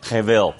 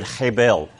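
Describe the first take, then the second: First: Hebel said the Hebrew way, v for b; Hebrew pronunciation. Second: Hebel said with an Australian accent, heh-bell; Australian pronunciation. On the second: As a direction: hebel in Australian English, plain b. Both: Shown as a demonstration. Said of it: "that's how it's said with an Australian accent".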